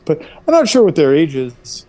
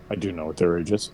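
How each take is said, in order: First: Higher, emphatic I'm NOT sure; coy evasion again. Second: Fast, softer aside; quick aside. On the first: Son to mom, pretending ignorance. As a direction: land the not with a wink. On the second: Son admitting the truth to the listeners, hushed and quick. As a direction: slip it in under your breath. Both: Shown as a demonstration.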